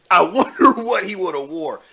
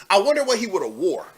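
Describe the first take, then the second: First: Amused, laugh breaking into the words. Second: Said in the usual way. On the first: Real, not acted. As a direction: laugh through the wondering. Laughing while imagining the outfit.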